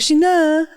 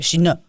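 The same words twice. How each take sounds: First: It is said with a French-from-France accent. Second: It is said with a harsher Quebec French accent. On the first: "my friends from France. They're like Sheena" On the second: "in Quebec it's like Sheena... it's like aggressive"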